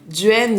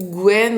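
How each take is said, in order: First: The word begins with a D sound. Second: The word begins with a G sound. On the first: This is the Vannes dialect form. "On dira plutôt" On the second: This is not the Vannes dialect form. "en Vantais, on dira pas"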